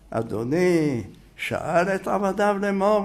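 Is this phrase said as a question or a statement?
question. It is said with a questioning tune. It is doubted that the lord ever asked.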